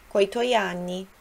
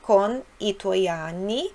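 First: Con and i are merged into one word, coi. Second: Con and i are said as two separate words. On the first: "pode-se dizer coi" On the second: "em vez de dizer coni"

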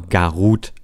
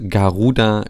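First: The name ends with a consonant sound. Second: The name ends with a full vowel sound. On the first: This is how the name is actually pronounced. "wird aber Garut ausgesprochen" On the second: This is how the name is written. "es wird Garuda geschrieben"

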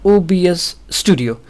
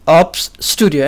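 First: OBS is spelled out letter by letter. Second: OBS is read as a single word. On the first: The speaker calls it right. "actually it is OBS studio" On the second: The speaker calls it wrong. "It says"

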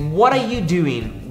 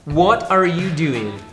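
First: The words are said quickly and run together. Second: The words are said slowly and separately. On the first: "De uma forma um pouco mais fluente" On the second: "Geralmente a gente falaria um pouco mais pausado"

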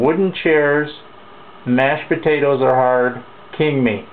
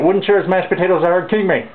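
First: It is said slowly. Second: It is said very fast.

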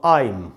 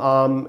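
First: The vowel glides like 'aim', with an 'ee' ending. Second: The vowel is a plain 'aa' without any glide. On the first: The speaker calls it right. "इसको पढ़ेंगे आ, ई और म" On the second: The speaker calls it wrong. "बहुत लोग इसको गलत सिखाते हैं ... वो सब गलत है"

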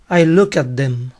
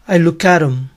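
First: The last word is the full form 'them'. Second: The last word is reduced to just 'em'.

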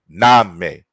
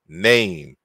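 First: The vowel is short and plain, without a glide. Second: The vowel is longer and glides like a diphthong. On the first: The speaker calls it wrong. "Notice you don't say" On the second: The speaker calls it right. "It's a little bit longer. We say"

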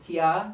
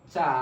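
First: It is said as two syllables, chi then ya. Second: It is said as one syllable, cha. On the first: The speaker calls it wrong. "Pronunciation হওয়ার কথা ছন্দ অনুসারে চিয়া" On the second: The speaker calls it right. "প্রোনাউন্সিয়েশনগুলো হবে চা"

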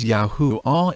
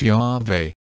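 First: The name ends with an 'ah' sound. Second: The name ends with an 'eh' sound. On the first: The speaker calls it right. "I personally prefer to pronounce the name of God as YAHWEH ... ending with AH" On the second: The speaker calls it wrong. "and not YAHWEH ... instead of EH"

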